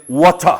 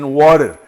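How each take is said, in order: First: British "water", hard T and no final R. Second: "water" with tapped T and final R; American-style water. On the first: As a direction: end "water" on an open "ah", British style. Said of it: "Te dicen water". ("water" con acento británico, sin R) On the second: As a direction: soften the T of "water" to a tap, keep the R. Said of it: "no te dicen water". ("water" con T suave y R final) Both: Shown as a demonstration.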